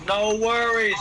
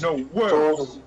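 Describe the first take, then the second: First: Hammed-up Chicago gangster accent, louder; a playful Chicago tough-guy take; mock Chicago accent. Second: Hammed-up Chicago gangster accent, louder; a playful Al Capone-style tough guy; mock Chicago gangster. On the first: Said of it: "he sounds like he's from Chicago". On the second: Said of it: "Al Capone fucking thing".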